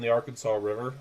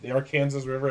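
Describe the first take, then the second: First: The name is said the speaker's usual way. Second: The name is said the local way. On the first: The speaker calls it wrong. "or sorry" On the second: The speaker calls it right. "as we call it here"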